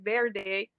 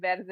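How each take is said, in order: First: It is said with an English-speaker's accent. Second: It is said with a native Spanish accent. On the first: The speaker calls it wrong. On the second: The speaker calls it right. "the Hispanics, you know, they can pronounce it properly"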